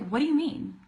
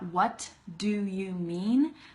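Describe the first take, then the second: First: The words run together quickly with reduced sounds. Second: Each word is said separately with stops between. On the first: The speaker calls it right. "So instead, we say" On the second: The speaker calls it wrong. "look how much I have to stop in between the words"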